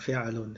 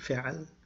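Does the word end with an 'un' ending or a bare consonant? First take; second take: un ending; consonant. First: The word ends with an added 'un' sound. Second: The word ends bare on the consonant l.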